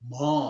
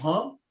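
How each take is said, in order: First: "mo" held long without nasal colouring; teacher modelling the long non-nasal mo. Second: "mo" clipped short with a nasal ring; teacher modelling the short nasal mo. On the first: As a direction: stretch out "mo" with no nasal twang. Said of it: "and without nasal, longer sound". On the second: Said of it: "This is short sound". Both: Shown as a demonstration.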